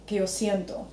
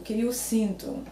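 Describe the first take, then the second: First: Siento with a ye glide and final o; Spanish-speaker version. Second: Sinto with nasal een and final oo; slowly, sinto as SEEN-too; Portuguese pronunciation. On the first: Co-host shows Spanish speakers' mistake, siento with ie diphthong. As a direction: say siento as SYEN-to, Spanish style. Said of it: "Spanish speakers would say". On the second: Co-host asks about the word, slow Portuguese sinto. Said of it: "what about the word sinto". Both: Shown as a demonstration.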